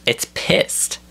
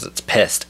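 First: "pissed" squeezed up high; high-pitched emphasis. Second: Said in the usual way. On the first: Real, not acted. Ranter insisting his eyebrow is angry, high-pitched emphasis.

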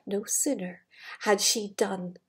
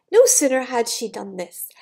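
First: Soft, low storytelling hush; hushed suspense. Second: Said in the usual way. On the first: Acted. Reading the transformation to the child, softly hushed. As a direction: lower the voice before the reveal.

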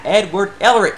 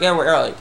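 First: "Edward Elric" with a clear d and a clean L; corrected name. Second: "Edward Elric" muddled, the L slipping after an R; slurred name slip. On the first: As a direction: carefully correct "Elric" to "EL-rick". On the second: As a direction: stumble over "Elric" as roughly "Erlick". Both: Real, not acted. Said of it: "What's wrong with me?".

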